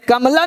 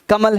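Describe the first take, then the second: First: The word ends with an extra final a vowel. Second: The word ends on the l with no vowel. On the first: The speaker calls it wrong. "कमला नहीं है" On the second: The speaker calls it right. "कमल है"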